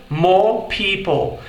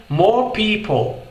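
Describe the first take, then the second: No difference in how they are said.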